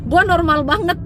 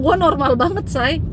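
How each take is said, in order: First: Gua normal banget with gua pushed higher; emphatic repeat. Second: Said in the usual way. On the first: Real, not acted. (tekankan kata gua) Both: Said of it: "Siapa bilang?".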